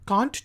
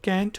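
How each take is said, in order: First: It is said with a British accent. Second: It is said with an American accent. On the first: "हम British English में कहते हैं" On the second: "हम American English में कहते हैं"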